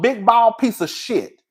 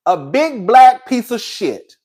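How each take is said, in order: First: "bald" dragged out and stressed; slow contempt. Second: "black" dragged out and stressed; slow contempt. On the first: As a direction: spit out "bald" slowly. Slow spiteful insult. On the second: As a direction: spell out "black" slowly. Slow spiteful insult repeated. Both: Real, not acted.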